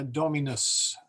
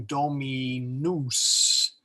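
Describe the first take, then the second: First: DOMINUS with a short, unstressed final U, DOH-mi-nus. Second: DOMINUS drawn out to end in "noose", rhyming with moose; wrong long U. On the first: Teacher showing the correct form, "dominus" with short U. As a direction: keep the last vowel of "dominus" brief. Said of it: "The, the U is short". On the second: Teacher warning against a bad habit, do-mi-NOOS with long U. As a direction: stretch the last vowel of "dominus" to a long OO. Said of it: "don't fall into the habit of saying". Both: Shown as a demonstration.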